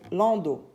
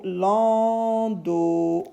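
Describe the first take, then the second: First: Said in the usual way. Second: Lando drawn out, lan-do; teacher sounding out lando; stretched syllables. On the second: Shown as a demonstration. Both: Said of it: "Le son O".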